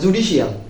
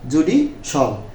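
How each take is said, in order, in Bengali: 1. শেষ অংশটি দুই সিলেবল, 'shi-al'। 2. শেষ অংশটি এক সিলেবল, 'shal'। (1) "জুডিশিয়ালটাও না বলে" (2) "আমরা বলবো জুডিশাল"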